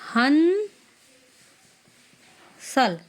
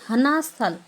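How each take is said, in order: First: The first word has one syllable. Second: The first word has two syllables. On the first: The speaker calls it right. "हम इसको बोलेंगे" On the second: The speaker calls it wrong. "हम ये नहीं बोलेंगे, गलत हो जाएगा"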